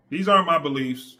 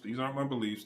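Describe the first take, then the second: First: These aren't my beliefs, louder, leaning on aren't; emphatic disclaimer. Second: Said in the usual way. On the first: Shown as a demonstration. Vlogger warning viewers, loud emphatic aren't. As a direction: punch aren't to insist this is not you. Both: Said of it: "telling you how I was thinking before".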